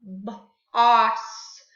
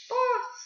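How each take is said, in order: First: "Boss" split: short b, gap, loud long "oss"; sounding out. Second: "Boss" joined up in one short high beat; blended word. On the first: Teacher changes bus's vowel for class, segmented loud "Boss". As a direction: break "Boss" after the b, then hold the vowel. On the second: Teacher blends the new word for class, high whole "Boss". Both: Shown as a demonstration. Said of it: "change the uh sound to an ah".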